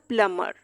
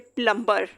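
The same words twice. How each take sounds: First: No b sound follows the m. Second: A b sound follows the m. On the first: The speaker calls it right. "ये word हो जाएगा" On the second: The speaker calls it wrong. "इसको हम इस तरह से नहीं बोल सकते"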